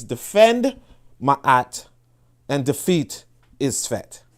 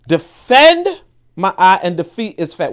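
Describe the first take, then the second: First: Said in the usual way. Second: "Defend Ma'at and defeat Isfet" slow and louder, "Defend" hit hard; slow emphatic motto. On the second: Shown as a demonstration. Host drives home the translated motto to listeners, slow and louder. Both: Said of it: "What does defeat Isfet mean?".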